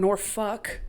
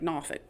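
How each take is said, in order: First: It is said in a standard accent. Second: It is said in a Tidewater accent. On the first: "You can say Norfolk or Norfolk" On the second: "I have a bit of a Tidewater accent sometimes. I pronounce it like Norfolk"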